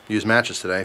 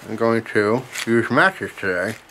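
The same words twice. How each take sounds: First: Said in the usual way. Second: Talking around a pipe stem; mumbled with pipe between teeth; pipe in mouth. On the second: Real, not acted. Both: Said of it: "if you didn't hear that".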